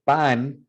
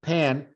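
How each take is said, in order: First: Slow pan with an unaspirated Spanish P. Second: Pan with a breath-burst P, English vowel. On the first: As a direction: say "pan" slowly with no air on the p. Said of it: "there should be no air coming out". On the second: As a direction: say "pan" with more air on the p. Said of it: "there's more air coming out". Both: Shown as a demonstration.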